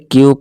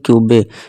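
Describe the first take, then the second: First: The word ends without an extra vowel. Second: An extra vowel is sounded at the end. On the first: The speaker calls it right. "इसे क्यूब पढ़ेंगे" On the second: The speaker calls it wrong. "ना कि क्यूबे"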